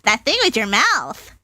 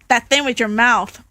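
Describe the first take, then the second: First: It is said in Bubbles' put-on voice. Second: It is said in his normal voice.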